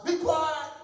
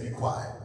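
First: Stern loud command. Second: Stern whisper. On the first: Shown as a demonstration. Rebuking the doubt about a house, sternly loud. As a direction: bark it down with authority. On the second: Acted. Jesus hushing the spirit, stern and whispered. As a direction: silence it with a whispered command.

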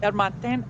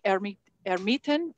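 First: Ermiten copied as "el-MAHN-ten", nasal end; corrected pronunciation. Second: Ermiten said as "ERM-ee-ten", hesitant restart; unsure first try. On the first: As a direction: Ermiten with a light R and open "ahn". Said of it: "Ermiten, yeah". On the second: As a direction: Ermiten with an English R and short i. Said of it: "Did I say that correctly?". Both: Real, not acted.

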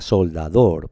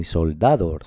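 First: Soldador stressed on DOR; stress on final syllable. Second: Soldador stressed on DA; wrong middle-syllable stress. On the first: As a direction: land firmly on DOR in soldador. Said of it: "se pronuncia soldador". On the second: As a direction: hit DA in soldador. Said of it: "ni soldador". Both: Shown as a demonstration.

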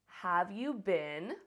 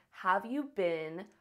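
Both takes have the same delivery.

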